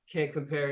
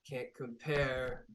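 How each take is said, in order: First: Said in the usual way. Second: Slow, drawn-out and quieter; slow, smug repeat of the taunt. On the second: Acted. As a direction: savour each word like a sneer. Repeats taunt slower, smugly.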